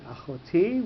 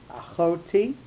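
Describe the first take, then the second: First: "achoti" with the stress on the final TI; accent on last syllable. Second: "Achoti" with the accent moved to the middle syllable, CHO; accent pushed back. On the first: Teacher showing the normal form, "achoti" stressed on TI. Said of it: "with the accent on the last syllable". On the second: Teacher showing the pushed-back accent, "Achoti" stressed on CHO. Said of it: "pronouncing it in a little bit of a strange way". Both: Shown as a demonstration.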